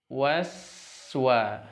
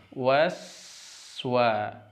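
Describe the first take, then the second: The two takes are said the same way.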